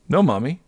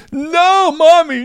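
First: Said in the usual way. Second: High, loud mock crying; wailing child. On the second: Three-year-old begs mom not to spank him, wailing. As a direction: wail like a panicking toddler.

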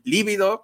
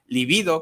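First: Líbido stressed on the first I, LÍ-bi-do; stress on first syllable. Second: Libido stressed on the middle syllable, li-BI-do; stress on second I. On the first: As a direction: punch the opening syllable of líbido. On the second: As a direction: lift and punch the second I of libido. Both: Shown as a demonstration. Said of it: "con acento en la segunda I".

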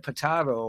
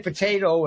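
First: Potato said puh-TAH-toh; broad "ah" in the middle of potato; other pronunciation. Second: Potato said puh-TAY-toh; long "ay" in the middle of potato; one pronunciation. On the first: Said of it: "I said potato". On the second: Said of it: "you say potato and I said". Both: Shown as a demonstration.

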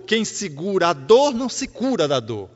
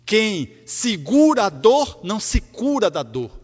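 First: Said in the usual way. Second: Segura and cura leaned on, slow and loud; slow stressed wordplay. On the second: Shown as a demonstration. Preacher repeating the wordplay to the congregation, slow and stressed. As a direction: spell out "Quem segura a dor não se cura da dor" slowly, hitting segura. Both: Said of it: "É um jogo de palavras intencional".

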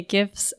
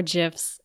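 First: "gifs" with a hard G. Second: "gifs" with a soft G; J sound opening "gifs". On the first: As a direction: say "gifs" starting like "gift". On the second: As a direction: say "gifs" like "jifs". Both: Shown as a demonstration. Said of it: "if you prefer gifs".

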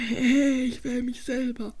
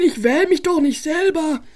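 First: Lower, slow and much softer; sneaky aside. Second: Said in the usual way. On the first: Acted. Spike quietly admits his sneaky plan. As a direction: mutter the secret plan to yourself.

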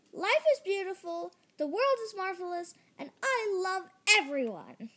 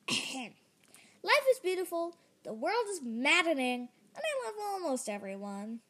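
First: Said in the usual way. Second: Stammered attempt. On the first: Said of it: "repeat after me". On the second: Jerry tries to repeat the saying, stammering. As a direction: struggle through the saying unconvinced. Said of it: "I stammered".

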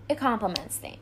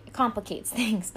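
First: "complements" said by mistake for "complicates"; wrong word slip. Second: "complicates" said right, with a laugh; corrected word. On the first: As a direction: slip into "complements", then correct it. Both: Real, not acted. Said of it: "not complements them".

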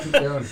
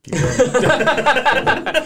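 First: Said in the usual way. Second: Much higher, stretched, rising on going; high drawn-out call. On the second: Acted. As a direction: sing it out high and long. Laughing urge to continue.

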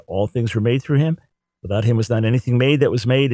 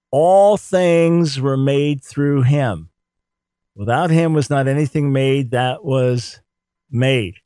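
First: Said in the usual way. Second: "All" stressed, read slow and grand; solemn slow reading. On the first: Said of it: "makes it absolutely clear". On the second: Shown as a demonstration. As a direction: proclaim it slowly, word by word. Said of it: "good way to translate".

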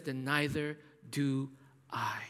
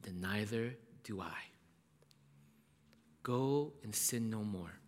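First: Preacher whispering Jesus' forgiveness; whispered mercy. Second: Jesus whispering forgiveness to the woman; whispered mercy. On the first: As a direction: drop to a tender whisper. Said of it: "And Jesus says". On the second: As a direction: breathe the forgiveness gently. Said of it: "And then he says". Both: Acted.

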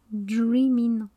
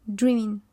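First: DREAMIN' drawn out, ending on a plain N; careful, lengthened "Dreamin'" with no G sound; DREAMIN' without the G. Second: Said in the usual way. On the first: Shown as a demonstration. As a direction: stretch out "Dreamin'", dropping the final G. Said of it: "Y a pas de G, donc c'est Dreamin'". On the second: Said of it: "Y a pas de G".

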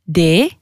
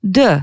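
First: Said in the usual way. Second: D said like French "deux"; D with a short eu after it; Albanian letter sound. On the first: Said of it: "ça se prononce comme". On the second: Shown as a demonstration. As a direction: say D as "deu", not "dé". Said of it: "comme le numéro deux".

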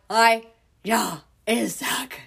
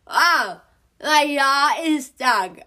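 First: Slow, garbled words through a jaw locked open; mouthing it out with no jaw movement; mouth stuck open. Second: Garbled, mouth jammed open in a yawn; pushing words out past a locked jaw, high and loud; mouth stuck open. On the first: Repeating it to mom, who can't understand, through a stuck jaw. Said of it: "she cannot understand me". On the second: On the phone to mom with her jaw stuck, garbled and urgent. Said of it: "My mouth is stuck open". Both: Retold or imitated.

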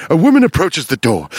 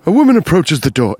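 First: Ominous true crime read; hint of crime documentary voice; sinister crime narrator. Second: Faster, ominous crime-show narration; lightly done sinister crime narrator; true crime narrator. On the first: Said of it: "now it sounds like". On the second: Pretend. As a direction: make it sound like a murder is coming. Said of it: "Now I'm doing Forensic Files".

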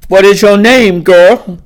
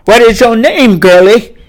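First: Loud, hard question; loud demand. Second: Louder and higher, booming. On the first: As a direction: demand her name. Master questions the girl. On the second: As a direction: boom the question down at her. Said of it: "he boomed". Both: Acted.

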